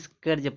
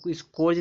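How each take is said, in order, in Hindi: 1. स्वर 'ur' जैसा सुनाई देता है। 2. स्वर 'or' जैसा सुनाई देता है। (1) "इसको स्कर्ज पढ़ेंगे" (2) "इसको स्कोर्ज नहीं पढ़ेंगे"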